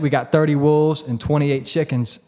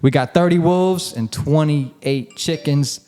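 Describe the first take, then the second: First: The sentence is said at a normal pace. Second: The sentence is said more slowly.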